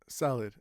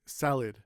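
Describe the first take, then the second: First: The second syllable is short and weak. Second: The same.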